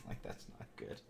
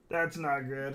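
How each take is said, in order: First: Whispered. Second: Said in the usual way. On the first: Real, not acted. Stream staggering, muttered aside.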